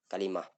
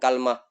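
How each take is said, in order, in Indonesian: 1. Huruf k memakai 'a' dan ada 'i' setelah l. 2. Huruf k memakai 'a' dan tidak ada vokal setelah l. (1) "yang lebih fasih" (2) "fathul kafi ... ma'a sukunil lami"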